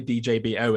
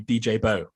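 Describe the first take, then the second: First: The final part is said as separate letters. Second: The final part is said as one word. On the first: This is the old form of the name. The speaker calls it wrong. "you don't say D J B O anymore" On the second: This is the new form of the name. The speaker calls it right. "You say [name]"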